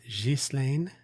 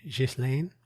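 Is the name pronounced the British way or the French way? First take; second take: French; French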